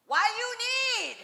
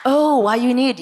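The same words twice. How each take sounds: First: Put-on high, slow, broken English Korean mom accent. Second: Put-on louder, overeager repeat of the Korean mom accent phrase. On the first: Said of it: "my mother looks at this woman and says".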